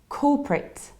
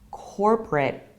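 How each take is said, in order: First: It is said in a British accent. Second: It is said in an American accent. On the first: "we need to say corporate" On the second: "in the American accent"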